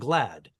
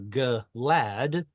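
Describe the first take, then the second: First: The g and l form one cluster. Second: A vowel separates the g and l. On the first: The speaker calls it right. "We say great and glad" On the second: The speaker calls it wrong. "we wouldn't say great or glad"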